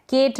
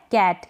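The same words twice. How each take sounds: First: केट with long "ay", like "Kate"; wrong pronunciation. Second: कैट with short open "ae", as in "cat"; correct pronunciation. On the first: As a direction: say केट with closed e vowel. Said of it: "नहीं पढ़ेंगे". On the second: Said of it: "केट नहीं पढ़ेंगे". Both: Shown as a demonstration.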